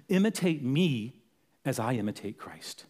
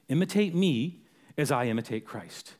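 First: Somber quote. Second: Understated, sober restatement; somber repeat. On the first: Apostle writes to the churches to imitate him, somber. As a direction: say it gravely, falling away at the end. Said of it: "that's a heavy, holy, somber statement". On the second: Preacher repeats the apostle's call to the church, sober. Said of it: "somber statement that he made". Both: Acted.

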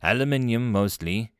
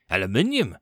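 First: Said in the usual way. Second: ALUMINIUM exclaimed in disbelief; horrified exclamation. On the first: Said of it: "he had his answer". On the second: A narrator's reading. Commander hears station's material, mildly horrified "Aluminium". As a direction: exclaim "Aluminium" with a touch of horror. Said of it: "Vakar exclaimed in horror".

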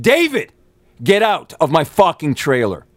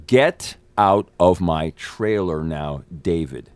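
First: High, forceful angry command; re-enacted angry outburst. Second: Very slow, controlled command, word by word; slow, deliberate order. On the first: Actor throwing David out of his trailer, angry and raised. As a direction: cut him off with a high, exasperated order. Escalates the order when interrupted. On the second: Retold or imitated. Actor ordering David out of his trailer, slow and deliberate. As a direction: spell it out slowly, as if to someone who didn't listen.

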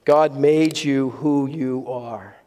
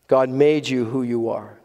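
First: Slow, weighty, each word laid down, GOD leading; slow emphatic statement. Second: Said in the usual way. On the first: Shown as a demonstration. Pastor announcing his third point to the congregation, slow and weighty. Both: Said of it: "So we come to point three this morning".

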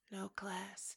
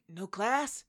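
First: Whispered with quiet disdain. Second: Said in the usual way. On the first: Retold or imitated. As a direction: drop to a scornful whisper. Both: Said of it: "he's like".

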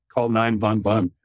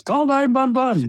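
First: Put-on light German accent. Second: Put-on shrill high German-accented shout, "one" said as "vun"; German accent yell. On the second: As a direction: scream it in a German accent, much higher and louder. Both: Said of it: "and with a German accent".

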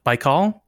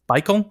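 First: "Baikal" tried with a full "-kawl" ending, questioning; unsure pronunciation. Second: "Baikal" with a reduced "-kul" ending, higher pitched; alternative pronunciation. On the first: Host unsure of the lake's name, "Baikal" ending in an open "-kawl". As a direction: say "Baikal" tentatively, second vowel open. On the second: Host retrying the lake's name, "Baikal" higher with a short "-kul" ending. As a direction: try "Baikal" questioningly with a weak second vowel. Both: Real, not acted. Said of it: "don't really know how to pronounce it".

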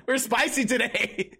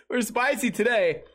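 First: Slow, giggly and amused; laughing. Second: Said in the usual way. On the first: Real, not acted. Streamer laughing about the spicy topic, slow and amused. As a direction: savour it through a laugh.

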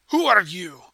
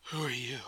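First: Loud challenge to an intruder; talking too loud. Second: Low, softer voice of an unusually deep elf. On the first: Boarder demands a stranger's identity, too loud. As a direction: demand it much too loudly. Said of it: "he talks a little bit too loud". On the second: Scarred elf woman addresses newcomer, deep voice. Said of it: "in a voice that's a lot deeper". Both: Acted.

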